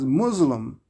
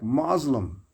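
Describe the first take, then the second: First: The word is pronounced in a changed way. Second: The word is pronounced the way it is spelled. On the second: "pronounce the word as spelled"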